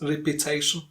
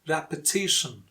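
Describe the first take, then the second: First: The stress falls away from the 'ti' syllable. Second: The stress falls on the 'ti' syllable. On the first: The speaker calls it wrong. "Not repetition" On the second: The speaker calls it right. "the stressed syllable T before shin"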